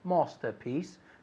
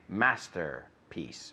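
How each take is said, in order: First: A British accent, with the R dropped. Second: An American accent, with the R pronounced. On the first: "They say master, masterpiece" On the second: "and we say masterpiece. ... nosotros acabamos la R y ellos no"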